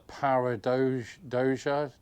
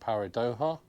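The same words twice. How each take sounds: First: The j is said like an English j. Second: The j is said like an h. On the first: "I'm going to try and say it" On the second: "Because the Mexican normally J's pronounced H"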